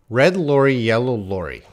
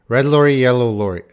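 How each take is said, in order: First: The phrase is said at a slower pace. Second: The phrase is said at a faster pace.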